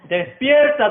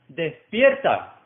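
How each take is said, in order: First: It is said loudly. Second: It is said at normal volume.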